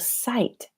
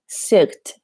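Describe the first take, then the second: First: No G sound is pronounced before the T. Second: A G sound is pronounced before the T. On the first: The speaker calls it right. "The G H is silent" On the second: The speaker calls it wrong. "I find some of my students pronounce this sigt"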